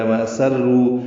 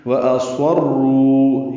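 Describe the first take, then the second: First: وَأَسَرُّوا said with a thin سین; light سین reading. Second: وَأَصَرُّوا slowly, with a heavy صاد; correct صاد reading. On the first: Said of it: "سین کے ساتھ پانچ مرتبہ ہے،". (وَأَسَرُّوا سین کے ساتھ پڑھیں) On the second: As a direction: recite وَأَصَرُّوا with a full صاد. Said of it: "یہ صاد کے ساتھ،". (وَأَصَرُّوا صاد کے ساتھ صحیح پڑھیں) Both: Shown as a demonstration.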